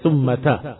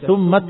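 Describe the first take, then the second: First: The final t is followed by a short a. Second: The final t has no vowel after it. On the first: "bisa fathah" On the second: "bisa pula sukun"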